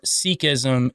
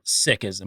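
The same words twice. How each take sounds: First: The first syllable sounds like 'seek'. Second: The first syllable sounds like 'sick'. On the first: This is the usual Western pronunciation. "is what we say in the Western world" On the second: This is the usual Eastern pronunciation. "in the Eastern world, they say"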